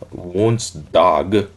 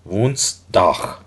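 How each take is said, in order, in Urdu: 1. g کی آواز h جیسی نہیں ہے۔ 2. g کی آواز h جیسی ہے۔ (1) "it is not Woensdag" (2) "we pronounce h, g as h"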